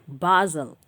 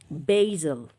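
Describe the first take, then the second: First: The word is said in a British accent. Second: The word is said in an American accent. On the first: "British English, say Basel" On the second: "American English, say basil"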